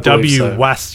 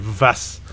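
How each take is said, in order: First: It begins with a W sound. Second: It begins with a V sound. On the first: The speaker calls it wrong. "you don't say W-Was" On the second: The speaker calls it right. "you say Vas"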